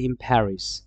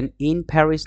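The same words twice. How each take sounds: First: "in Paris" said as im-Paris; linked "in Paris" with m; assimilated form. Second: "in Paris" with a plain n; careful "in Paris", tongue-tip n; unassimilated form. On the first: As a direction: make the n of "in" an m before "Paris". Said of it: "এটা হয়ে যাবে". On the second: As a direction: keep the n clear in "in Paris". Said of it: "না হয়ে". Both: Shown as a demonstration.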